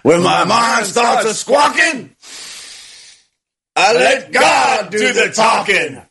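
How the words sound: It is said in a put-on cartoon rooster voice.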